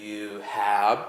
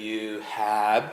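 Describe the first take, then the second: Both takes have the same delivery.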